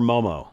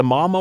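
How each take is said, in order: First: "Momo" with a long "oh" in both syllables; alternative pronunciation. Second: "Momo" with an open "ah" first vowel, MAH-mo; alternative pronunciation. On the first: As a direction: say "Momo" as MOH-moh. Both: Shown as a demonstration. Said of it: "So is it the Momo or Momo".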